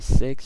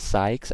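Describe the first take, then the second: First: The vowel is a short 'ih' sound. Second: The vowel is a long 'eye' sound. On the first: The speaker calls it right. "I say six" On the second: The speaker calls it wrong. "I don't say sykes"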